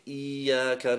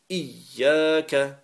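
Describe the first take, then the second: First: A long vowel separates the sounds before 'ya'. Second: The 'y' sound is doubled and joined together. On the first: The speaker calls it wrong. "We don't lengthen the alif and say Iyya and leave them separate sounds" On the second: The speaker calls it right. "We actually join them together"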